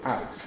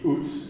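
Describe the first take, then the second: First: The vowel glides as a diphthong. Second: The vowel is a single long oo sound. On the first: It marks the standard pronunciation. "the standard uh, pronunciation, which has a diphthong out" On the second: It marks the regional Scottish pronunciation. "the regional pronunciation would be oot"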